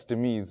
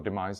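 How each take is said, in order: First: "demise" tried as de-MEEZ; unsure pronunciation. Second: Said in the usual way. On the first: Real, not acted. Storyteller unsure how to say the word, "demise" as de-MEEZ. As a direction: say "demise" with an EE in the second syllable. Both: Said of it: "however you say that".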